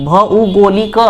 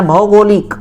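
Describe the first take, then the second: First: भौगोलिक with औ split as अउ; Nagpuri pronunciation. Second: भौगोलिक with the Hindi औ sound; Hindi pronunciation. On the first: Teacher showing the Nagpuri form of भौगोलिक. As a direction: say भौगोलिक Nagpuri style, अ then उ. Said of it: "हम कैसे लिखेंगे उसको नागपुरी में". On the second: Teacher showing how भौगोलिक is said in Hindi. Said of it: "ये हिंदी में हो गया". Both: Shown as a demonstration.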